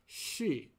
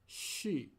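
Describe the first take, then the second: No difference in how they are said.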